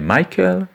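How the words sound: The name is said with an English pronunciation. "en anglais Michael"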